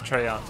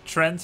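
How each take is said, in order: First: The word is said as two syllables. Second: The word is said as one syllable. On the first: The speaker calls it wrong. "I often mispronounce it. I said Treyant" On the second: The speaker calls it right. "he pronounces it correctly. Trent is how he pronounces it"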